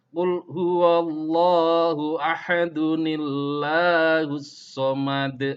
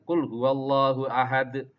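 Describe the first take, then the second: First: Ahad gains an added n-sound and runs on. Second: It stops on ahad with no ending added. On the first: The reader continues into the next verse. "Kalau kalian membacanya disambung, maka di situ ada nun iwatnya" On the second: The reader pauses at the end of the verse. "Kalau kalian berhentikan"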